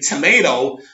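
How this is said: Tomato is pronounced in an American way.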